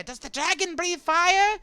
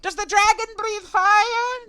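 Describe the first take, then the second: First: High, loud curious cry; excited creature shouting. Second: Drawn-out, very high screamed question; creature's full shout. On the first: Small Alliamite asking about the dragon, high excited shout. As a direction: call the question out in a squeaky little voice. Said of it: "They, uh, shouting out". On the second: Small Alliamite shouting about the dragon, slow piercing yell. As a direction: shriek it slowly at the top of a little voice. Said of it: "shouting out". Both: Acted.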